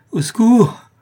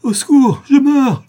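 First: High, loud desperate shout; cry for help. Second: Very high, full-force scream; last desperate cry. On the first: Poisoned accomplice calls for help, high loud cry. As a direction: yell out for rescue. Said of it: "cria le complice de Jacques Ferrand". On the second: Dying accomplice gathers strength for a last screamed plea. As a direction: throw all remaining strength into it. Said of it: "en rassemblant ses forces dans un dernier cri". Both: A narrator's reading.

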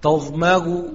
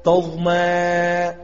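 First: تظمغ ending in a softened, waw-like u; eased hamza with rawm. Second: تظمى with a long level aa replacing hamza; hamza turned to alif. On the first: Teacher shows tas-heel, تظمغ ending in eased waw-like hamza. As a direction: glide off the end of تظمغ with no full glottal stop. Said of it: "التسهيل كالواو". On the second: Teacher ends the alif examples, تظمى with long held aa. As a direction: stretch the final alif of تظمى in a chant. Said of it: "الإبدال ألفا قياسيا". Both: Shown as a demonstration.

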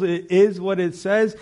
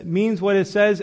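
First: "It is what it says" with "is" leaned on and drawn out slowly; slow it down and press the word "is"; stress on is. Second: "means what it says" with "says" hit as the peak; stress on says. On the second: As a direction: land firmly on the word "says". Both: Acted. Insisting on the plain meaning.

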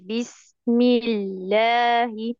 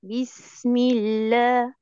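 First: بسم الله said very slowly with every letter pressed hard; the wrong overdone way. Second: بسم الله said very slowly and easily, no pressure; the right relaxed way; relaxed recitation. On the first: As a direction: lean heavily on each letter of بسم الله. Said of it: "شايفة بركن إزاي على الحروف". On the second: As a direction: let بسم الله flow loose and light. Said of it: "بريحية أكتر". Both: Shown as a demonstration.

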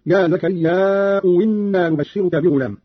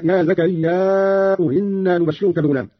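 First: "زكريا" held long, then "إنا" glided in as winna; long madd, "إنا" starting with w; hamza turned waw. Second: "زكريا" with long final a before "إنا"; long madd on "زكريا", softened onset of "إنا"; hamza after alif. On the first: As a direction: slowly join "زكريا" to "إنا" with a w sound. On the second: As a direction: slowly stretch the end of "زكريا", then ease into "إنا". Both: Shown as a demonstration. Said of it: "وكذلك قوله تعالى".

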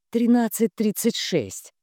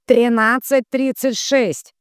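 First: High, even reply of the number; supply the number promptly; raised, matter-of-fact prompt; prompting helper. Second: Loud, slow, high repeat; forceful drawn-out relay call; relaying the number. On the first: Svinin answers at once. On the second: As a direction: belt out each figure slowly. Tatiana repeats it to the medium. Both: A narrator's reading.

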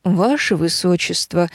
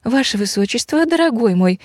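First: Measured, polite male address; courteous husband. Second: Higher-pitched wifely call. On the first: Blond husband complimenting his wife, courteous. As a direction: address her evenly and formally. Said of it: "обратился блондин к дочке ведьмы". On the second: Witch's daughter summoning her husband, calling out. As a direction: call lightly to a darling husband. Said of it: "позвала она". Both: A narrator's reading.

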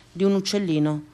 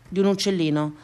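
Both takes have the same delivery.

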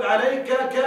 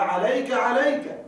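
First: عليك ك with the ك said again; wrong doubled suffix. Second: Said in the usual way. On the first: Shown as a demonstration. Teacher shows the wrong form to students: عليك ك with a stray ك. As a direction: add a lone ك after عليك. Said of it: "لا تقل". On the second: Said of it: "لا،".

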